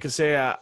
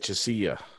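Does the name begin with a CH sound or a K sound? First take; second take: K sound; CH sound. First: The name begins with a K sound. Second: The name begins with a CH sound. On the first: This is how the other person says it. "You say Casilla" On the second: This is how the speaker says it. "I say Chisilla"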